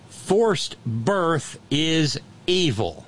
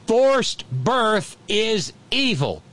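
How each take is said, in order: First: It is said at normal volume. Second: It is said noticeably louder.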